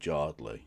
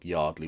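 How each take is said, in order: First: The word begins with a J sound. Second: The word begins with a Y sound.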